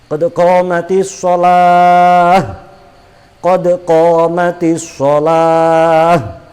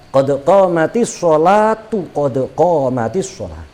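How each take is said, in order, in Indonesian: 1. Jeda napas memisahkan kedua frasa. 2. Kedua frasa itu tersambung tanpa jeda. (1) "Kalau nafas" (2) "Karena disambung"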